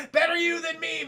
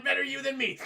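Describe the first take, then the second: First: Loud laughing gloat on Better you than me; laughing shout. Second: Said in the usual way. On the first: Acted. Chad gloating to himself, laughing shout.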